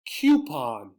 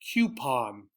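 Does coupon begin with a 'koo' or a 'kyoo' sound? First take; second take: koo; kyoo. First: The first syllable sounds like 'koo'. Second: The first syllable sounds like 'kyoo'. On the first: "I usually say this one" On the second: "This is you. Ooh, you"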